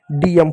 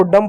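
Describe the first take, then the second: First: डीएम said as two letter names, "dee-em"; name each letter in डीएम; spelled-out letters. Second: डम said as one syllable, "dum"; read as a word. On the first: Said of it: "लेकिन हम डीएम पढ़ रहे हैं". (अक्षरों के नाम "डी-एम") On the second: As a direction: blend D and M into डम. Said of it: "इसको डम पढ़ना चाहिए". (एक शब्द जैसा "डम") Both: Shown as a demonstration.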